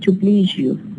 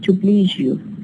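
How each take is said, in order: First: A zh sound comes before you. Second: The same.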